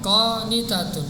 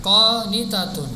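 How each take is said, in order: No difference in how they are said.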